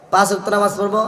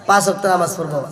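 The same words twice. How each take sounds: First: "পাঁচ ওয়াক্ত নামাজ পড়বো" repeated with পাঁচ stressed and the tune rising at the end. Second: Said in the usual way. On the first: Shown as a demonstration. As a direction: echo the vow, leaving it hanging upward. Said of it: "repeated vow, second take". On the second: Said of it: "repeated vow, first take".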